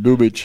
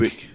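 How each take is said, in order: First: The name ends with an 'itch' sound. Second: The name ends with an 'ick' sound.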